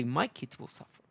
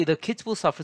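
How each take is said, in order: First: My lifted and pressed, rest softer; stress on My. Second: Said in the usual way. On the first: Shown as a demonstration. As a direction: hit the word My to flip it. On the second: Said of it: "Flip it".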